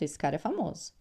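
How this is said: It ends with a flat statement tune. It states a fact. "uma afirmação"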